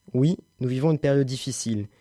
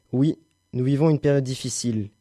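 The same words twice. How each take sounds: The two takes are said the same way.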